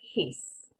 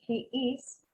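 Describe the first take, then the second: First: It is said as one short syllable. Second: It is said as two separate syllables. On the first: "cuando está contraído, his" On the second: "De cuando no está contraído, se pronuncia he is"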